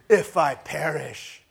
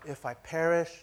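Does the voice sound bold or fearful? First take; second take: bold; fearful. First: It is said boldly and defiantly. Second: It is said with uncertainty and fear. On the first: She faces death heroically, without doubt. The speaker calls it wrong. "she stands on a mountaintop and she puts down a flag real hard" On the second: She is afraid but does it anyway. The speaker calls it right. "with a certain amount of uncertainty, with a certain amount of fear in her heart"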